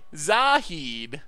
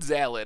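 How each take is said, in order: First: The middle consonant is an H sound. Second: The middle consonant is an L sound. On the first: "So you get heed out of hid" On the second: "I know that's not right because there's no L"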